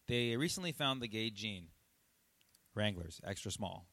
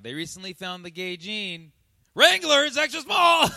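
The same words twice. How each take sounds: First: The joke is delivered in a dry, casual way. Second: The joke is delivered in a lively, animated way. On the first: "Just like super dry, super casual" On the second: "what if I just flipped it around"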